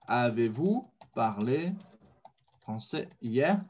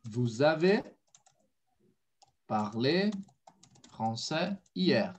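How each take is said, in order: First: "Avez-vous parlé français hier" slow and low, rising on "hier"; inverted question. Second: "Vous avez parlé français hier" slow, chunked, dropping on "hier"; falling statement order. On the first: Teacher confirms student's inversion, slow question rising on "hier". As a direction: ask it slowly, lifting "hier" at the end. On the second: Teacher builds "Você falou" in French, slow with falling "hier". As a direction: model it slowly, letting "hier" fall. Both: Shown as a demonstration. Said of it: "agora com a inversão".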